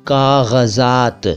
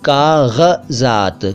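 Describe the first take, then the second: No difference in how they are said.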